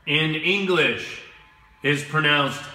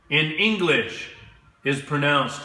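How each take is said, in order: Both takes have the same delivery.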